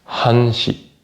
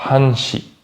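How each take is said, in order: The two takes are said the same way.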